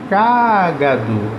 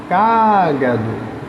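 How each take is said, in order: First: The stress is on the first syllable. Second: The same.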